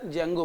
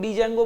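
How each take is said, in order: First: The word starts with a J sound, D silent. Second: The word starts with a pronounced D sound. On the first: The speaker calls it right. "डी यहां पर silent होता है, तो better जेंगो बोलें" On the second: The speaker calls it wrong. "कुछ लोग डी जेंगो बोलेंगे"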